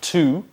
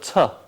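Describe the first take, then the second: First: The word has a full vowel. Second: The word has a weak uh vowel. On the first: The speaker calls it wrong. "we don't say to" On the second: The speaker calls it right. "but to. That uh sound"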